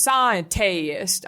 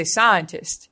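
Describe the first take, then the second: First: "scientist" drawn out as SCI-en-TAY-ist; mocked mispronunciation. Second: Said in the usual way. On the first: Mocking British actor's bad accent, "scientist" as sci-en-tay-ist. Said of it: "He goes". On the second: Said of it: "That's not what we say".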